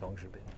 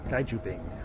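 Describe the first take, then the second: First: The first syllable sounds like 'gong'. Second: The first syllable sounds like 'gai'. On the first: The speaker calls it right. "It's Gong, isn't it?" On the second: The speaker calls it wrong. "No, I can't pronounce that right"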